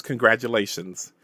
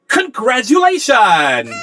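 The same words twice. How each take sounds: First: Said in the usual way. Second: High, loud, drawn-out congratulatory yell; Anna's yell. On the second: Acted. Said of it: "is there and yells".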